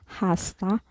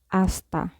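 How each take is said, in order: First: The word begins with an audible H sound. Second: The word begins directly with the vowel sound. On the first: The speaker calls it wrong. "We don't pronounce this as hasta" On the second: The speaker calls it right. "but we pronounce this instead as hasta"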